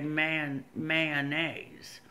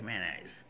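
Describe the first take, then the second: First: The word is said with all its syllables. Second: The word is said with fewer syllables. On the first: Many other people say it this way. "a lot of people say" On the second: People where the speaker is from say it this way. "we just shorten it up where I'm from"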